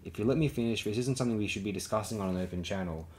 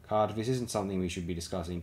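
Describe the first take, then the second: First: A touch cooler, measured and controlled; cool it down a degree and finish the point. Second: Said in the usual way. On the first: A narrator's reading. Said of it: "letting her own voice cool a degree or two".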